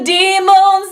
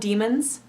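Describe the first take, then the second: First: The second syllable has a full 'o' or 'ah' vowel. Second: The second syllable has a weak 'uh' vowel. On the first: It marks the speaker as a non-native speaker. The speaker calls it wrong. "pronounce the vowel in the second syllable as an O or an ah" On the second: It sounds natural in spoken English. The speaker calls it right. "we tend to pronounce it with sort of an I or uh or even an eh"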